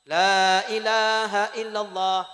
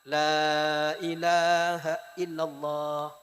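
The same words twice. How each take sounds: First: It is repeated quickly and insistently, pressing. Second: It is said once at a moderate, calm volume. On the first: The dying person is being pressured. The speaker calls it wrong. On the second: The dying person is gently guided. The speaker calls it right. "Tidak terlalu keras, tidak terlalu lunak"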